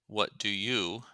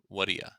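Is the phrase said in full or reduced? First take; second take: full; reduced. First: Each word is said fully and separately. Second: The words run together with a weak final vowel.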